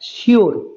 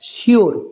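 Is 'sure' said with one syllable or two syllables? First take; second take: two syllables; two syllables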